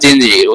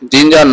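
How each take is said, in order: First: The second syllable has an 'i' vowel. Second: The second syllable has an 'a' vowel. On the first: The speaker calls it right. "উচ্চারণ হবে জিঞ্জির" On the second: The speaker calls it wrong. "জিঞ্জার না জিঞ্জির"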